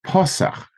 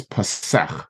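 First: "pasach" as PA-sach; front-stressed noun "pasach", pitched up. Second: "pasach" as pa-SACH, falling; end-stressed verb "pasach". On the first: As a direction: punch the first syllable of "pasach". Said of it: "it's a noun". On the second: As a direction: put the weight on the last syllable of "pasach". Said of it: "when it's a verb". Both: Shown as a demonstration.

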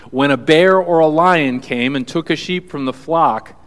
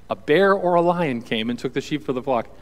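First: Louder, firmer read of the quote; bold scripture reading. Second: Said in the usual way. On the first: Acted. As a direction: proclaim the line with force. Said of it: "this is what David says". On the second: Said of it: "repeated line".

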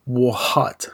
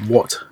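First: What with a sounded h and long drawn ah; American what. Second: What short and clipped, no h; Australian what. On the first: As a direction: say what stretching the ah vowel. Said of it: "you say". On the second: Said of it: "instead of just". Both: Shown as a demonstration.

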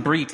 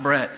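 First: "Brit" with a short clear i sound, as in bit; correct name Brit. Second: "Brett" with an open e sound, as in bet; wrong name Brett. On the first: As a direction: say "Brit" crisply, short i like in sit. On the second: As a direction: contrast it: "Brett" with e like in get. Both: Shown as a demonstration. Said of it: "I'm Brit, not Brett".

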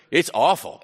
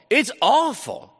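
First: Said in the usual way. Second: "It's awful" pitched high and slowed, leaning hard on "awful"; emphatic awful. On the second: Shown as a demonstration. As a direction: drag out "awful" so it lands as truly dreadful. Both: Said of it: "No, it's awful".

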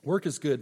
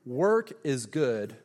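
First: Said in the usual way. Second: 把 work 拖长说，每个字放慢; slow and deliberate on work; stress on work. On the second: Shown as a demonstration. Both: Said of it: "write down".

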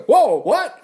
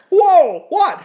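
First: High, loud startled reaction; astonished. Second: Very high, loud squeal of disbelief; utter astonishment. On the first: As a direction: stop short in sudden surprise. Acts out Isaiah's astonishment at God. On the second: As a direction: blow up with amazed shock, far over the top. Acts out astonishment, bigger second take. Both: Acted.

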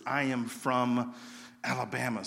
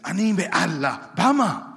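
First: Said in the usual way. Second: 'Anime Alabama' said slowly and loud, clumsy learner's Hebrew; bad Hebrew. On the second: Nervous new student trying his only Hebrew phrase on kids, slow loud blurt. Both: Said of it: "the only thing I could say in Hebrew is".

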